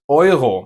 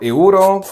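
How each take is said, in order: First: The first vowel is the rounded German oi sound. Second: The first vowel sounds like English 'you'. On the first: The speaker calls it right. "but Euro in German" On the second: The speaker calls it wrong. "this is not a euro"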